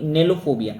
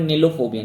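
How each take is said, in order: First: नेलोफोबिया with an e sound in नेलो; corrected pronunciation. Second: नीलोफोबिया with a long ee in नीलो; wrong pronunciation. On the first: Teacher to students, correcting the vowel to e. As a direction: fix it to नेलोफोबिया, e not ee. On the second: Teacher to students, reading the word with the wrong vowel. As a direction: read it as नीलोफोबिया, ee sound first. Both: Shown as a demonstration. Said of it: "नीलो नहीं, नेलोफोबिया".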